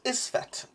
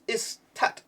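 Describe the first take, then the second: First: The middle consonant is an F sound. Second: The middle consonant is a T sound. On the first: The speaker calls it right. "that is really an F, not a T" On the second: The speaker calls it wrong. "Not Istet, like I said the first seven times"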